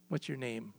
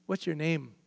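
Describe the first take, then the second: First: A softer, lower echo of the question; hushed repeat. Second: Said in the usual way. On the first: Acted. Moses asks God again at the bush, hushed and softer. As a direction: let it drop away, almost to yourself.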